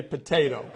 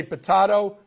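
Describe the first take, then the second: First: Potato said as po-TAY-to, long ay vowel; potato with the middle vowel as in "day". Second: Potato said as po-TAH-to, broad ah vowel; potato rhymed with "lotto", middle vowel ah. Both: Shown as a demonstration. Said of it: "I want to start with a little ditty".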